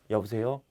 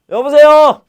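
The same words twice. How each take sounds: First: The greeting is said in a quiet voice. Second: The greeting is said in a loud voice. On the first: The speaker calls it right. "조용한 소리로, 작은 소리로 통화를 해야 되죠" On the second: The speaker calls it wrong. "이렇게 하면 안 돼요"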